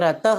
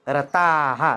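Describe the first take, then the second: First: The word ends without an audible breathy h. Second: The word ends with an audible breathy h. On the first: The speaker calls it wrong. "इथे रतः असं म्हणतात, ते चुकीचं आहे" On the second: The speaker calls it right. "ताचा विसर्ग आपल्याला इथे दाखवायचा आहे"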